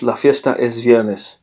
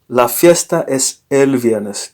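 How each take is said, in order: First: Said in the usual way. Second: «la fiesta es el viernes» said slowly and clearly, with «el» included; slow correct model. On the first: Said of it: "Don't say just". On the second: Shown as a demonstration. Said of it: "Don't say just la fiesta es viernes".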